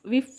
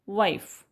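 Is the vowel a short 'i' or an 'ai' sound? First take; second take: short i; ai. First: The vowel is a short 'i' sound. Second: The vowel is an 'ai' sound. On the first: The speaker calls it wrong. "विफ विफ something is वेअर्ड आहे ना" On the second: The speaker calls it right. "वाईफ हा शब्द correct वाटतोय"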